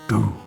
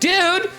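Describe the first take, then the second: First: It is said in a mock-villainous tone. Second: It is said in a normal friendly tone. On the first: This is the joking villain version. "the Rec's villain arc is" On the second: This is the usual nice-guy way. "instead of saying"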